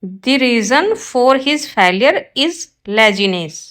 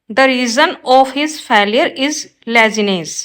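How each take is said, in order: First: Slow, careful read of the corrected sentence; slow teacher dictation. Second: Slow, careful read of the wrong sentence; slow teacher dictation. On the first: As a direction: lay out each word clearly for the class. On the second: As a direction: spell it out word by word for the class. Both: Shown as a demonstration. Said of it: "right होगा ये".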